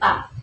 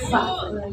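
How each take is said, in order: First: The word begins with a P sound. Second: The word begins with an F sound. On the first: The speaker calls it wrong. "bukan pak ya" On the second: The speaker calls it right. "tapi fa"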